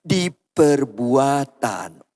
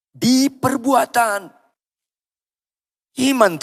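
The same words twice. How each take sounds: First: Said in the usual way. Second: High, drawn-out insistent call; emphatic preacher's rallying answer; more forceful. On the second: Shown as a demonstration. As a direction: raise it high and stretch it out. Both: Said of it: "Lebih keras".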